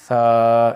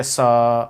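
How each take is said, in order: First: ثا with the tongue between the teeth, no hiss; ثا said loud as a th sound; correct tha sound. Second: ثا wrongly said as سا with a hiss; the children's mistake, a hissing s; سا instead of a lisped ثا; wrong whistled sa. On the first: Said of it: "دونوں دانتوں کے درمیان زبان کو". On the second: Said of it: "سیٹی کی آواز نہیں آنی چاہیے". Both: Shown as a demonstration.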